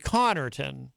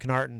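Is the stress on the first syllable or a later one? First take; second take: first; later. First: The stress is on the first syllable. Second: The stress is on a later syllable. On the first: The speaker calls it right. "You would put the emphasis on the C-O-N-N" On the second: The speaker calls it wrong. "they would put the emphasis on the wrong syllable"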